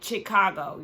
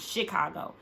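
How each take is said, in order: First: The first syllable sounds like 'chick'. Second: The first syllable sounds like 'shih'. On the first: The speaker calls it wrong. "that was just the way that she was pronouncing it" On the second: The speaker calls it right. "It's Chicago"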